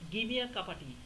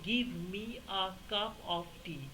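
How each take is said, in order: First: The words are reduced and run together. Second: Each word is pronounced fully and separately. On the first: "তারা বলবে" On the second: "আমি যখন বলবো যে"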